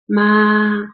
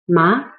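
First: The pitch stays high and level throughout. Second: The pitch starts mid and rises to high. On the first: Mother. "ma has the highest pitch. ... ma is a flat tone. There's no change when you speak it" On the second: Numb, the tongue feeling from a seasoning. "It's a rising tone, so you start with middle level at 3, and then you rise it to 5"

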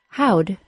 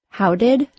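First: Did shrinks to a d sound. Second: Both words are said fully and separately.

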